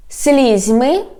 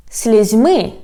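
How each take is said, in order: First: "Слізьми" stressed on СЛІЗЬ, rising end; front-stressed "Слізьми"; stress on first syllable. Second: "слізьми" stressed on МИ, falling; end-stressed "слізьми"; stress on last syllable. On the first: Teacher showing how stress changes sound, "Слізьми" stressed on СЛІЗЬ. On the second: Teacher showing how stress changes sound, "слізьми" stressed on МИ. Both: Shown as a demonstration. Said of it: "when we change the stress".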